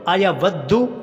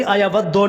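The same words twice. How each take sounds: First: अयवद्दु with a clear u at the end; correct U ending. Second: अयवद्दो said with an o at the end; wrong O ending. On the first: (अयवद्दु के आख़िर में उ की आवाज़) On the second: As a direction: round the last vowel of अयवद्दो to o. (अयवद्दो के आख़िर में ओ की आवाज़) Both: Shown as a demonstration. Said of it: "अयवद्दो नहीं पढ़ना".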